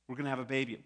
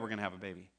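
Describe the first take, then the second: First: It is announced with excitement and build-up. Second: It is said casually, in passing.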